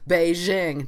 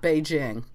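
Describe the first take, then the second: First: The j is soft, like the s in measure. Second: The j is hard, like the j in just. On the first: The speaker calls it wrong. "one of those Americans who say Beijing" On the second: The speaker calls it right. "not Beijing"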